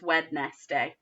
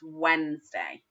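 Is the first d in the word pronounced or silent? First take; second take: pronounced; silent. First: Every letter is sounded, including the first d. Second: The first d is silent, said as Wensday. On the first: The speaker calls it wrong. "spelt as if it's going to be spoken as Wednesday" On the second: The speaker calls it right. "but it isn't. It's Wednesday"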